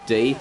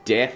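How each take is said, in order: First: The name is said with a long 'ee' vowel. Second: The name is said with a short 'e' vowel. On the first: The name sounds less intimidating. "We're going with Deeth because it's less intimidating" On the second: The name sounds more intimidating. "whether to call him Death"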